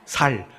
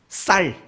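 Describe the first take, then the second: First: The first consonant is plain and soft. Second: The first consonant is tense and strong. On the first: "쌀을 뭐라고 부른다죠?" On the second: "경상도 사람들은 뭔 발음을 잘 못한답니까?"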